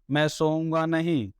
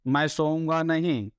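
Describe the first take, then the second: No difference in how they are said.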